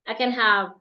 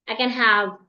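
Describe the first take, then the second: No difference in how they are said.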